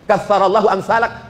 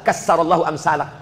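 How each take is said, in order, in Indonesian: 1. Kata pertama memiliki bunyi th. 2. Kata pertama memiliki bunyi s. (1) "Yang semestinya" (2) "Dirobah jadi sa"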